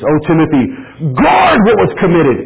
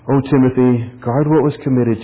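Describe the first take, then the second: First: It is said with forceful, urgent energy. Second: It is said in a flat, reading tone. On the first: The charge to guard is urgent and serious. The speaker calls it right. "is how you said it" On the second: The words are merely being read out. The speaker calls it wrong. "You didn't just read it like this"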